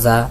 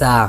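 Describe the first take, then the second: First: The letter is said with a soft sound. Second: The letter is said with a hard sound. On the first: The speaker calls it wrong. "অনেকে আমরা বলি যা যা, এটা এরকম না" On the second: The speaker calls it right. "এটা হবে যা। মানে শুদ্ধ করে বলতে হবে"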